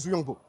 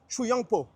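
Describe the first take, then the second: First: The name is said with a French pronunciation. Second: The name is said with a Chinese pronunciation. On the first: "peut-être c'est moi, je le dis mal" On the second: "ils le disent avec l'accent, genre"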